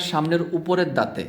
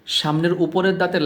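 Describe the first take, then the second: No difference in how they are said.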